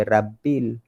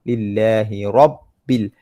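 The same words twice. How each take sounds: First: "Rabbil" with thin open "rab"; wrong recitation. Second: Slow "Lillahi Rabbil" with rounded "rob"; correct recitation. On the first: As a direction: mistaken "Rabbil", light r and plain a. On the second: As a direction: model "Rabbil" as heavy "robbil". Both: Shown as a demonstration. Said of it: "Jangan baca Rabbil".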